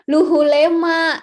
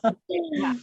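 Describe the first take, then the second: First: The name is said with 'u' vowels and an 'h'. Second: The name is said with 'o' vowels and a 'w'. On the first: The speaker calls it wrong. "aku pikir Luhulema gitu" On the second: The speaker calls it right. "salah pengucapan"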